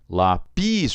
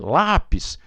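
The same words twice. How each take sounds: First: The stress is on the second syllable. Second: The stress is on the first syllable. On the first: The speaker calls it wrong. "O pis é mais forte" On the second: The speaker calls it right. "O A é mais forte do que o I"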